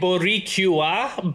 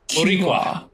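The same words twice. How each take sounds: First: The word is said slowly. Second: The word is said fast. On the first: "it would be more like Boricua" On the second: "it's just pronounced faster"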